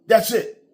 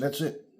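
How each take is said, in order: First: That's it, punched higher and louder; emphatic repeat. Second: Said in the usual way. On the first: Real, not acted. Insisting to viewers it's simple, louder and higher. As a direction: hammer the point home: THAT'S IT.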